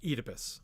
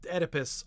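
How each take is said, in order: First: The first vowel is a long E. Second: The name is said the American way. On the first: "they pronounce the O E um, vowel in Greek as a long E" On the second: "as we call him in America"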